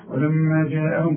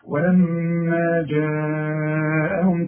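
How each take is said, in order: First: The vowel in jaa'ahum is cut short. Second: The vowel in jaa'ahum is held long. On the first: The speaker calls it wrong. "مش تقول لي ولما جاءهم كده، لا لا لا" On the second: The speaker calls it right. "اهو ده المد الوجه، لازم"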